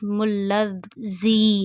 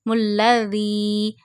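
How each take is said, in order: First: The consonant is a hissing, whistling z. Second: The consonant is a soft th without whistle. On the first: The speaker calls it wrong. "Don't read it like this" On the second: The speaker calls it right. "read zal without whistle sound voice"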